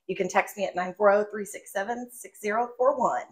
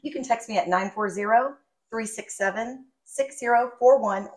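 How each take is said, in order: First: The number is said quickly. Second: The number is said slowly.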